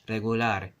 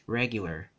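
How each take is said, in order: First: It is pronounced the Spanish way. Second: It is pronounced the English way.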